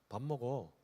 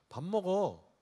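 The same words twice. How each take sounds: First: It is said at a soft volume. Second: It is said somewhat louder.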